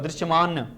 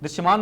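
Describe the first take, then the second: First: The final consonant is said in full, with a vowel. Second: The final consonant is cut short, with no vowel. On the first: The speaker calls it right. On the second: The speaker calls it wrong.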